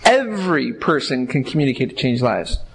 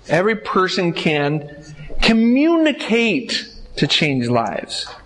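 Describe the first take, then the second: First: The stress falls on the word every. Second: The stress falls on the word communicate. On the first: It applies to everyone, not only gifted people. "When we're talking about everyone" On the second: The point is the act of communication itself. "We just emphasize that as our key word"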